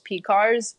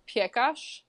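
First: The surname is said in an English pronunciation. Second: The surname is said in its original pronunciation.

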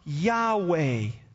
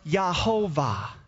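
First: The middle consonant is a W sound. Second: The middle consonant is a V sound. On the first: "here's how that sounds" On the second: "the W sound would go to a V in their language"

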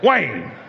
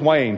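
First: The name is said in a stern, scolding tone. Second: The name is said in a plain, neutral tone. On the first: Something is wrong in his heart and life. The speaker calls it wrong. "when she refers to me in that way, it's a pretty good indication that there's something going on in my heart" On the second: Everything is fine. The speaker calls it right. "You know me as Wayne"

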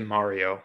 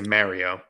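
First: The name is said with an Italian-style pronunciation. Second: The name is said with a common English pronunciation. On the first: "that's like the Italian in us" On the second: "most people say Mario"

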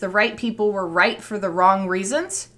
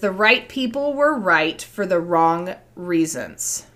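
First: It ends with a rise, like a question. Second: It ends with a fall, like a statement.

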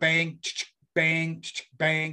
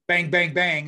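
First: The three bangs have longer gaps between them. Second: The three bangs follow each other quickly. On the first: The gun must be pumped between shots. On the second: The gun fires automatically without reloading.

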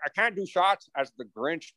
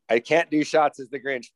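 First: It is said in a put-on character voice. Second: It is said in the speaker's ordinary voice. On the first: "it was more like" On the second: "Although it didn't sound like that"

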